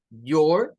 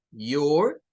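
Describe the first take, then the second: First: "Your" said as yor, rising at the end; English "Your". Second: "your" as yor with a rolled r; English "your". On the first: Teacher modelling "Your" for the students. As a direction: say "Your" with a y onset. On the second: Teacher repeating "your" as a model. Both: Shown as a demonstration. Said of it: "viene del U".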